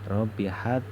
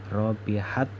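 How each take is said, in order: No difference in how they are said.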